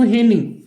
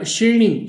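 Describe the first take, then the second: First: The word begins with an h sound. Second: The word begins with an sh sound. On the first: This is the Samvedi dialect form. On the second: This is the standard Marathi form.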